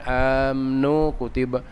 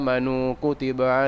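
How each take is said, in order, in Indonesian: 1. Vokal di antara m dan n dihilangkan. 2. Vokal penuh terdengar di antara m dan n. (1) "bukan amnu kutiba. Salah" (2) "fathah enta jadi sukun"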